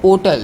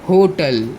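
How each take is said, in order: First: The word begins directly with the o vowel. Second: The word begins with a strong h sound. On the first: "एच पे ज़्यादा जोर नहीं देते हैं" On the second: "हम एच पे ज़्यादा जोर देते हैं"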